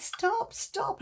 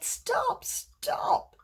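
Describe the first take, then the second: First: High pleading stop, stop; pleading cry. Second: Very high, strained stop, stop; desperate pleading cry. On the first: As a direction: beg the potter to stop, rising high. Cup begs potter to stop. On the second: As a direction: cry out higher as the fumes sicken you. Cup begs painter to stop. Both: Acted.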